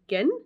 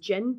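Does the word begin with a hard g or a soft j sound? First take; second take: hard g; soft j. First: It begins with a hard g sound. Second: It begins with a soft j sound. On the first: It is the character's name. The speaker calls it right. "it said to pronounce it like the g and begin. So gin?" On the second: It sounds like the name of the alcoholic drink. The speaker calls it wrong. "I know not to say it as gin because she said not pronounced like the alcoholic"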